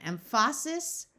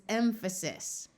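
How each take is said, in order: First: "emphasis" as em-FAH-sis, second syllable stressed; incorrect stress. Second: "emphasis" as EM-fuh-sis, first syllable stressed; slowly, with the weight on EM in "emphasis"; correct stress. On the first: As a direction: slowly lean on FAH in "emphasis". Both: Shown as a demonstration. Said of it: "Listen again".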